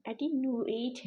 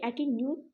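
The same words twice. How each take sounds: First: "एटीन्यूएट" with u-ate as two syllables; attenuate with vowel. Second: "एटीन्यूट" ending in a single oot syllable; attenuate missing vowel. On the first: Teacher correcting for students, "एटीन्यूएट" ending in -nyu-ate. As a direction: add a clear ay before the t in "एटीन्यूएट". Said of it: "नहीं है, एटीन्यूएट है". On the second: Teacher showing the incomplete reading, "एटीन्यूट" ending in -nyoot. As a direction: close "एटीन्यूट" straight from u to t. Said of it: "ये एटीन्यूट नहीं है". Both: Shown as a demonstration.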